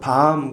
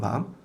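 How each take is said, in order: First: The vowel is held long. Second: The vowel is kept short. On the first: It means night. "발음을 길게 하면 그게 밤인가요? 깜깜한 밤" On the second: It means chestnut. "짧게 하면 먹는 밤이고"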